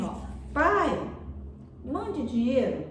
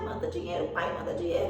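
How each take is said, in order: First: High, slow, pleading sweetness; sweetly imitated child's request; mother's tender reading. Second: Brusque, mocking demand, pitched below the complaint; curt, irritated mimicry of a son's demand; father's harsh reading. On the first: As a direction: draw it out as a loving plea. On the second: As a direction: read it as a rude demand. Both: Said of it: "a entonação de voz, a forma que ela leu".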